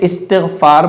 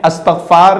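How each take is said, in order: First: The word begins with an 'i' vowel sound. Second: The word begins with an 'a' vowel sound. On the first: The speaker calls it right. "बल्कि इस्तिग़फ़ार बोलना है" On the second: The speaker calls it wrong. "अस्तग़फ़ार नहीं बोलना"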